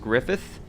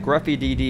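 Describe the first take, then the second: First: The name ends with a 'th' sound. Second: The name ends with a 'dee' sound. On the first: The speaker calls it right. "is actually pronounced Griffith" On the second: The speaker calls it wrong. "I know that I'm saying it wrong"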